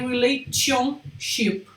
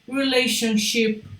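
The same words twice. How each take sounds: First: The middle consonant sounds like a plain 't'. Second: The middle consonant sounds like 'sh'. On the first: The speaker calls it wrong. "Nunca vai ser relationship" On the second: The speaker calls it right. "O som desse T é quase de que um C H"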